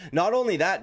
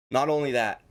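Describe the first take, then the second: First: “only” pushed higher and louder; stress on only. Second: Said in the usual way. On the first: Shown as a demonstration. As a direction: lean hard on “only”.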